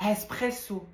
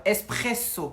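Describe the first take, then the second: First: "Espresso" with an Arabic-style breathy h at the front; botched Arabic-sounding repeat; Arabic-accented. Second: "Espresso" firmly modelled, starting on a clean E; teacher's insistent "Espresso"; corrected pronunciation. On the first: Pretend. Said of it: "tu viens de le dire en arabe". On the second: Shown as a demonstration. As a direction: correct the pupil with a crisp, h-less "Espresso". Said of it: "Non, là, tu viens de le dire en arabe".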